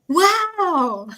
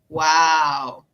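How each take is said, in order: First: Wow is said in an excited tone. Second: Wow is said in a sarcastic tone. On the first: The speaker is genuinely impressed. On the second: The speaker is not really impressed.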